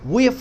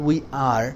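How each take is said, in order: First: The two words are shortened into one syllable. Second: The two words are said separately and fully. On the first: The speaker calls it right. "we're friends" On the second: The speaker calls it wrong. "not we are"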